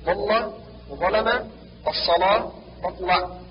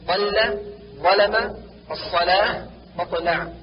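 First: ضل وظلم، الصلاة مطلع with heavy dark l; thickened lam. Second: ضل ظلم، الصلاة مطلع with thin clear l; light lam. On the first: Teacher shows the error, ضل وظلم، الصلاة مطلع with heavy lam. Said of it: "تغليظ اللام في غير لفظ الجلالة". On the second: Teacher corrects, ضل ظلم، الصلاة مطلع with light lam. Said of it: "والصواب". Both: Shown as a demonstration.

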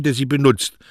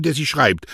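First: Der sie benutzt with der stressed and falling. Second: Der sie schreibt with der stressed and falling. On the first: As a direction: lean on der, finish firmly on benutzt. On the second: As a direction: lean on der, let schreibt fall. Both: Acted. Postman arguing poetry belongs to its user, der stressed. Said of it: "Die Poesie gehört nicht dem".

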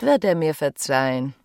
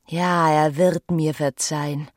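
First: Said in the usual way. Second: Slow, leaning hard on "wird"; stress on wird. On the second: Acted. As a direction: convince herself, "wird" stretched and weighted. [name] repeats with emphasis.

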